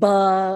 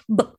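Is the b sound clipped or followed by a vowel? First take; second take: vowel; clipped. First: The b is followed by a clear vowel. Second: The b is short with barely any vowel. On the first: The speaker calls it wrong. "instead of saying buh and puh and tuh" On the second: The speaker calls it right. "clipped consonant quick sounds"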